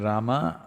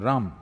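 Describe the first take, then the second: First: The final vowel is pronounced fully. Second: The final vowel is cut off, North Indian style.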